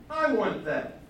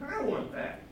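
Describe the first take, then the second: First: Loud demand. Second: Covetous whisper. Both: Acted. King covets again.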